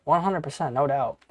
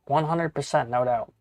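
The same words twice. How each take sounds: The two takes are said the same way.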